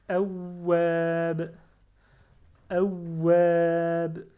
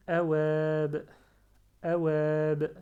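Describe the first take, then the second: First: AWAB slow and loud, w held; with shadda. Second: AWAB with a short w and long final a; without shadda. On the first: Teacher showing the word with shadda, w held hard. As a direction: press on a doubled w in "awab", then a long a. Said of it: "Mais puisque j'ai shadda". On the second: Teacher showing the word without shadda, single light w. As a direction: say "awab" with a quick single w, stretching the last vowel. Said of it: "Donc si j'ai pas shadda". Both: Shown as a demonstration.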